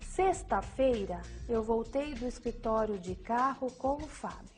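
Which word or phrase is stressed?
sexta-feira. The stress falls on "sexta-feira". It tells which day it happened. "A ênfase na sexta-feira indica o dia em que a ação ocorreu"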